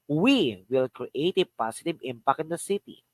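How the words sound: The word "we" carries the main stress. "The first is we"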